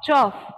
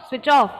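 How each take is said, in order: First: It is squeezed into one short syllable. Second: Both words are said fully and clearly.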